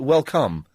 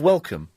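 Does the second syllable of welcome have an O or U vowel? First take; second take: O vowel; U vowel. First: The second syllable is said with an O vowel. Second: The second syllable is said with a U vowel. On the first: "Which is how it should be pronounced, probably" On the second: "Instead of welcome. So actually pronouncing the O instead of the U"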